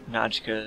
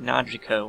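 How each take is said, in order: First: It is said with two syllables, no vowel before k. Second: It is said with three syllables, an extra i. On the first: The speaker calls it right. "there's no I in her name" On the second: The speaker calls it wrong. "I always want to pronounce it Najika with an I"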